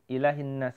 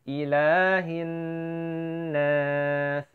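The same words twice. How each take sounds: First: The nasal n sound is rushed and cut short. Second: The nasal n sound is held for a while. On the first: The speaker calls it wrong. "jangan sampai terlalu terburu-buru. ... nggak boleh" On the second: The speaker calls it right. "In, hin, ditahan seperti itu ya"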